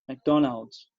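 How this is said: It is said with an American English pronunciation. "a pronúncia norte-americana"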